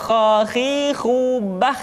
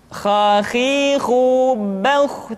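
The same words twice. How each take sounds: First: "khakhihu bah" with a thin open "bah"; wrong thin vowel. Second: "Khakhihu bauh" slow, with a heavy rounded "bauh"; thick slow vowel. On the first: Teacher showing the wrong thin reading. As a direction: say "bah" light to show the error. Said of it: "tidak khakhihu bah". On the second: Teacher showing the correct thick reading. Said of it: "dengan suara yang tebal". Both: Shown as a demonstration.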